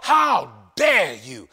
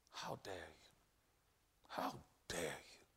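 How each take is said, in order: First: Slow, much louder shouted how dare you; shouted taunt. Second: Low, much softer whispered taunt; whispering devil. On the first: Preacher shouting the devil's challenge at the congregation. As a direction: roar it from the pulpit. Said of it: "the devil whispers in the ears". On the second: Preacher voicing the devil whispering, low and hushed. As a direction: hiss it like the devil in your ear. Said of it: "the devil is saying". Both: Acted.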